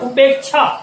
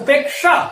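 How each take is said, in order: First: The cluster is said like a 'chh' sound. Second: The cluster is said as 'k' plus 'sh'. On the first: The speaker calls it wrong. "ऐसा उच्चारण गलत है" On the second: The speaker calls it right. "इसका सही उच्चारण इस प्रकार होना चाहिए"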